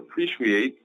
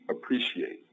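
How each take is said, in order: First: The sh is said with rounded, pushed-forward lips. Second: The sh is said with relaxed, unrounded lips. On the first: The speaker calls it wrong. "It's not appreciate" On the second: The speaker calls it right. "it's appreciate"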